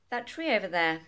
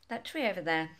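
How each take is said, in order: First: The two t sounds merge into one. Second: The two t sounds merge into one.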